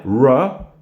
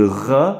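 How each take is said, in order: First: English r at the start of "ra", no French throat r. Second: "ra" with a French throat r; French uvular r at the start of "ra". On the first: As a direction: model "ra" slowly with the English r. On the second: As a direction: say "ra" with the r made at the back of the throat. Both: Shown as a demonstration. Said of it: "ça n'existe pas en anglais".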